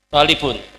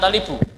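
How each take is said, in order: First: The word ends with an n sound. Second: The word ends with a bare vowel. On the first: The speaker calls it right. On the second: The speaker calls it wrong.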